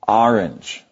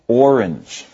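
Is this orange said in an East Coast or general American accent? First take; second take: East Coast; general American. First: It is said with a US East Coast pronunciation. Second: It is said with a general American pronunciation. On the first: "Someone from the East Coast of the U.S. is likely to say orange" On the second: "people in the rest of the nation are apt to pronounce it orange"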